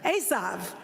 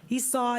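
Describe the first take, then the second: First: The name is pronounced the Hebrew way. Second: The name is pronounced the English way. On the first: The speaker calls it right. "I'm just going to say it in Hebrew" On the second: The speaker calls it wrong. "I can never say this name in, in, in English"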